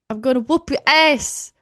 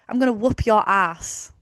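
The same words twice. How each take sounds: First: It is said in a put-on American accent. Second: It is said in a plain British accent. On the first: The speaker calls it right. "I love doing that accent" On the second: The speaker calls it wrong. "Imagine if like I spoke like that"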